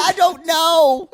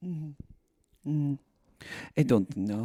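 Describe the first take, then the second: First: High, drawn-out mock voice; Natalie. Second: Natalie. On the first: Host imitating a woman dodging a question, high and drawn-out. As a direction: stretch it out high, mocking her indecision. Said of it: "She does say". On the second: Retold or imitated. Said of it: "And Natalie goes".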